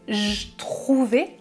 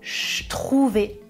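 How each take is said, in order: First: The first word keeps its vowel and voiced j. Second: The first word is reduced to a voiceless ch. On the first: "avec le son j" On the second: "avec le son ch de chocolat"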